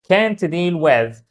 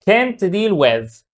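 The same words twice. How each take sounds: The two takes are said the same way.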